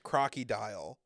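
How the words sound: It is said with a mild French accent. "Why'd you say it like that? ... It's French"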